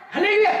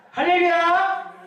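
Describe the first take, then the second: First: Quick hallelujah shout. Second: Slow, stretched-out praise call; drawn-out hallelujah. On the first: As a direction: fire off the praise fast. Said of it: "quick preacher's cry". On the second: Preacher stretches out praise to the congregation, slow. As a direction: draw the word out slowly for the crowd. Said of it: "drawn-out preacher's cry". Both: Acted.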